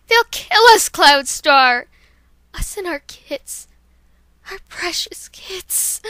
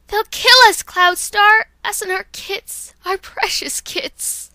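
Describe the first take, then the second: First: Loud, high plea fading to a slow whisper; panicked cry that breaks to a whisper; Dawn Flash terrified. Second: Panicked mother cat pleading; Dawn Flash terrified. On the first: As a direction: cry out, then whisper over the kits. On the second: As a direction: beg the leader to save the kits. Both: Acted. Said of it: "here's Dawn Flash".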